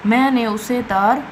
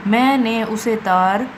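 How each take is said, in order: Both takes have the same delivery.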